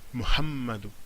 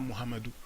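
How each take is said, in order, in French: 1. Le son m est tenu et fortement accentué. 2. Le son m est court et simple. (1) "c'est Mu, Muhammadou... la couronne est sur le mime" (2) "ce n'est pas Muhammadou"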